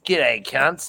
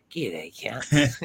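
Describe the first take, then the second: First: Brash Aussie pitchman greeting, a bit louder; a spokesman opening his own ad for the listeners; bogan whiskey ad. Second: Whispered mock ad greeting; the same greeting whispered to the mates as a joke. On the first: Pretend. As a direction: hail the crowd like a cheeky booze ad. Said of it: "ultimate Aussie fucking bogan spokesperson". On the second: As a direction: breathe it out in a whisper. Replays his ad greeting.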